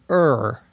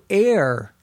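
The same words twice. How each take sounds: First: Err does not sound like the word error. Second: Err sounds the same as the word error. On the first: "The traditional pronunciation" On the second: "many people now who pronounce E-R-R as though it were the same pronunciation as error"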